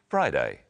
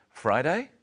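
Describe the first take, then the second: First: "Friday." with a falling, sure tune; certain Friday. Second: "Friday?" with a rising, unsure tune; questioning Friday. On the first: Teacher showing a confident falling "Friday.". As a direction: state "Friday." as settled fact. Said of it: "she would say it like this". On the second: Teacher showing a doubtful rising "Friday?". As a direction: ask "Friday?" as if not quite sure. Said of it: "Notice the inflection in her voice". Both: Shown as a demonstration.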